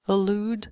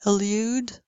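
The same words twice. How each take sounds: First: "elude" said as "e-lood"; no y after l in "elude"; American, no glide. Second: "elude" said as "e-lyood"; British y glide. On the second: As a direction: put a y after l in "elude". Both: Shown as a demonstration. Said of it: "Same thing".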